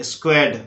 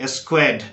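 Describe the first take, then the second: Both takes have the same delivery.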